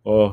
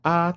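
First: The vowel sounds dark, loose and low. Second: The vowel sounds bright, open and high.

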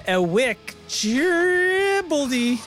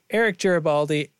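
First: The name is pronounced with deliberately mangled sounds. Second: The name is pronounced in the ordinary way. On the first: "say it weird" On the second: "Was right"

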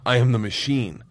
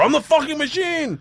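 First: It is said at normal, quieter volume. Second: It is said loudly.

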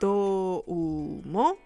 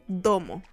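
First: Each syllable is spoken separately with full u. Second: The syllables run together with a faint u. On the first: The speaker calls it wrong. "en lugar de decir do, u, mo" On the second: The speaker calls it right. "lo decimos corridito en japonés como si fuese domo"

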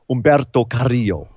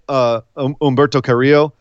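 First: The name is said with a Spanish-style pronunciation. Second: The name is said with an English-style pronunciation. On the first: "It's an accent thing" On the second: "It's Like when we say Humberto Carrillo"

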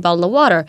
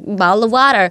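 First: It is said in the speaker's own accent. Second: It is said imitating other people's accent. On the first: This is how the speaker normally talks. "that's how I speak. I say bottle of water" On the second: This is how other people said it back. "And they all like"

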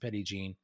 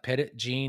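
First: The name is pronounced the way locals say it. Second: The name is pronounced as its spelling suggests. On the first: "they pronounce it" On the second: "It looks like"

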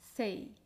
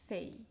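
First: The syllable starts with an s sound. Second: The syllable starts with a th sound. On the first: "en muchas otras variedades de español se pronuncia S" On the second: "pronunciamos el sonido C con la lengua ligeramente entre los dientes"

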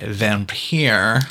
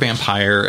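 First: The word is said with a silly, exaggerated sound. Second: The word is said in a plain, ordinary way. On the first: "Anything where I can make a silly noise, I'm going to say it that way" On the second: "The word vampire as we know it"

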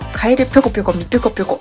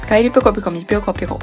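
First: The pyo syllables are pushed with strong force. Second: The pyo syllables get no extra force. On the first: "ぴょに力を入れたら言えるんじゃないかな" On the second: "言えなかった。"

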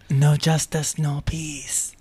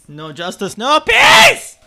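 First: The phrase is said at a quieter volume. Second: The phrase is screamed very loudly. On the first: The speaker calls it right. "Thank you" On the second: The speaker calls it wrong. "Can you scream that a little less loud"

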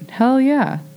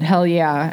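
First: The pitch drops sharply on the phrase. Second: The pitch stays level without a sharp drop. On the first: The speaker calls it right. "I know that drop" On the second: The speaker calls it wrong. "you didn't have the intonation right"

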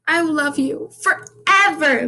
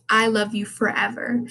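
First: It imitates Caroline's weird way of talking. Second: It is said in the speaker's plain voice.

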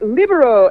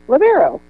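First: It is said with an accent and a rolled R. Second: It is said in an ordinary American way.

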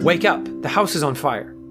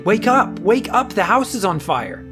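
First: It is said in a fairly calm voice. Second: It is said in a more urgent voice.

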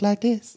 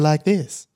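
First: The voice is raised to a high pitch. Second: The voice is at a low pitch. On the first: The voice is put on to be liked more. "he put on the high voice" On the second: This is the natural voice. "had a lower voice"

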